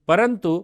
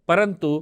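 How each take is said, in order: Both takes have the same delivery.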